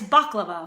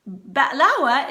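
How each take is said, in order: First: Baklava as BAHK-luh-va with a hard k; Greek-style pronunciation. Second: Ba'lawa with a glottal stop for the k; Levantine pronunciation. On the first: Cook giving the other name, Greek way. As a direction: say baklava with a clear k and v. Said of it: "Greeks say baklava". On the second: Cook equating the two names, Levantine way. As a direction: say ba'lawa slowly as ba'-LAA-wa. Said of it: "ba'lawa is baklava". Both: Shown as a demonstration.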